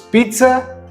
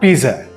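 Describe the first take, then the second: First: A t sound comes just before the z. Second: No t sound comes before the z. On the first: The speaker calls it right. "There's an invisible T just before the Z's. So it's pizza" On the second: The speaker calls it wrong. "not pizza"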